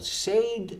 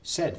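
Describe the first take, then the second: First: The vowel sounds like the vowel in 'say'. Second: The vowel sounds like the vowel in 'sed'. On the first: The speaker calls it wrong. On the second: The speaker calls it right. "Think of this. Tengo sed"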